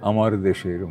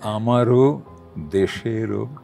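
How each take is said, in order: First: Each word ends on a bare consonant. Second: Each word ends with an added o vowel. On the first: It is the ordinary everyday way of saying it. "স্বাভাবিকভাবে বলতে গেলে" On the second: It follows the Santiniketan singing style. "হসন্তবিহীন"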